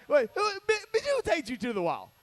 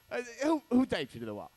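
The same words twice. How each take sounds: First: High, loud disbelieving shout; mock shocked yell. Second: Said in the usual way. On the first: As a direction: act stunned at the sight on the wall. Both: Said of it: "You're like".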